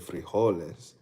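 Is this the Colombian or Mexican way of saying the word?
Mexican. It is said the Mexican way. "Mexicans say frijoles"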